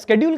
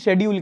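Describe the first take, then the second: First: The word begins with an 'sk' sound. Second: The word begins with an 'sh' sound. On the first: "स्केड्यूल कहते हैं" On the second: "शेड्यूल कहते हैं"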